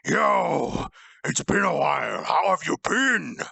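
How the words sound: It is said in another character's voice.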